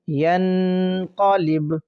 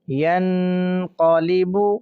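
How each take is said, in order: First: The word ends with a bare consonant. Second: The word ends with a short vowel.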